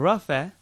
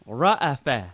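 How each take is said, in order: First: The word runs straight through without a middle break. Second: The word has a glottal break before the second vowel. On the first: The speaker calls it wrong. "it's not rafa" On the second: The speaker calls it right. "It's ra'afa"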